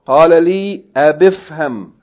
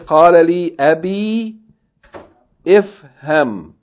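First: Ifham is joined to the previous word without a break. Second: Ifham is said separately, starting with its own vowel. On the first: The speaker calls it right. "but rather we're saying what" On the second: The speaker calls it wrong. "we don't say"

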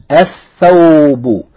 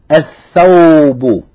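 Both takes have the same delivery.

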